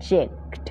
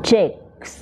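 First: "checked" ending in a t sound; slip of pronunciation. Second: "checks" with a clear final s; S-ending pronunciation. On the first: Teacher misreading the bill phrase, slip ending in t. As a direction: finish "checked" on a crisp kt. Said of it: "oh sorry checks". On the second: Teacher correcting to the plural, clear S-ending pronunciation. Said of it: "เสียง S นะคะ". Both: Shown as a demonstration.

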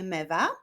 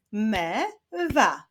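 First: Said in the usual way. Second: "Me-wa" split as me, pause, wa; syllable by syllable. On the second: Shown as a demonstration. Teacher clapping syllables with pupils, "Me-wa" said syllable by syllable. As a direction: sound out "Me-wa" in two beats. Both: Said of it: "A teraz sylaby w wyrazie mewa".

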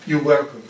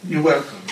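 The two takes are said the same way.

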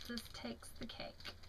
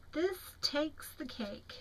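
First: Whisper. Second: Slow reading. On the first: Rereading the same card. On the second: Reading the card slowly. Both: Real, not acted.

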